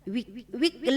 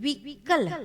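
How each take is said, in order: First: All three syllables are light and evenly spaced. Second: The syllable kal is joined and carries weight. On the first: The speaker calls it wrong. "विकल ऐसा नहीं बोलते हैं" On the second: The speaker calls it right. "वि लघु कल, कल वहां पर भार पड़ रहा है"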